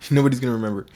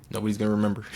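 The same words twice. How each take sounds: First: Louder and fast, with a laugh; laughing repeat. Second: Said in the usual way. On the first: Real, not acted. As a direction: laugh it out, rushing the words.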